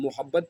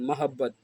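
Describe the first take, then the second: First: The first syllable is said as 'mo'. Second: The first syllable is said as 'ma'. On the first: The speaker calls it wrong. "हम इसको ग़लतुल आम में मोहब्बत पढ़ते हैं" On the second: The speaker calls it right. "जबकि लफ्ज़ है महब्बत"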